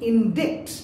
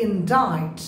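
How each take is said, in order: First: Indict said as in-DIKT, c sounded; wrong pronunciation. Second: Indict said as in-DITE, silent c; correct pronunciation. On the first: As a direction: mispronounce indict with a hard k. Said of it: "not indict". (indict ভুলভাবে ইনডিক্ট) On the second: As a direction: say indict to rhyme with bite. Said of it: "they say". (indict-এ c অনুচ্চারিত, ইনডাইট) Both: Shown as a demonstration.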